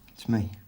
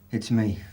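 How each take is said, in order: First: It is said quietly. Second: It is said loudly.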